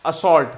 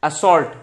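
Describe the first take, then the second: No difference in how they are said.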